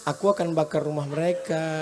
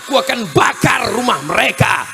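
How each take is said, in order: First: It is said in a soft, gentle voice. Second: It is said loudly and forcefully.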